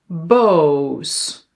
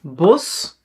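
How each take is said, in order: First: "boos" with a long Dutch oo, like "bose"; "boos" held long on its vowel. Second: "Bos" with a short o; "Bos" said with a quick "aw"; short vowel. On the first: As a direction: draw out "boos" on an "oh". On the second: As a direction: keep the o in "Bos" brief. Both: Shown as a demonstration.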